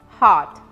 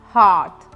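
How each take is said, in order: No difference in how they are said.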